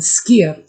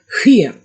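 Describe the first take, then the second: First: The word starts with a crisp 'sk' sound. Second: The word starts with a breathy, blowing sound. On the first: This is the Icelandic pronunciation. "it's called skyr in Icelandic" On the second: This is the Swedish pronunciation. "it's called hyr in Swedish ... ready to blow out a candle"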